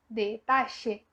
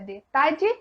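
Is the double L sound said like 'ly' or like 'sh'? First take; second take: sh; ly. First: The double L sounds like 'sh'. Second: The double L sounds like 'ly'.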